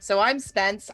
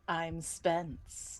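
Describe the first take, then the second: First: It is said in his normal speaking voice. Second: It is said in a put-on, unnatural voice.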